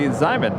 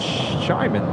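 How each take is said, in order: First: The word begins with a 'z' sound. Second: The word begins with a 'sh' sound. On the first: The speaker calls it wrong. "you say Zyman" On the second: The speaker calls it right. "but it's Shaman"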